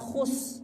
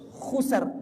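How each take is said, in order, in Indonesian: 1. Kata ini berakhir tanpa bunyi r. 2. Kata ini berakhir dengan bunyi r. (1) "bukan khus. Salah kalau khus" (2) "Innal insana lafi khusr"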